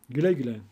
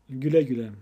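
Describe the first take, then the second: The two takes are said the same way.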